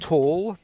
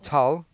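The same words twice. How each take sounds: First: It sounds like the English word tall. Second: It is said with the name's own pronunciation. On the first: The speaker calls it wrong. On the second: The speaker calls it right.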